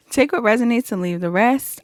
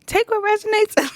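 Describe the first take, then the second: First: Said in the usual way. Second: High squeal of suppressed laughter; real giggles bursting through a high-pitched voice; cracking up. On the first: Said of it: "I'm in a good mood right now". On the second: Real, not acted. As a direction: try to get the line out before laughter takes over. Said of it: "I'm cracking up".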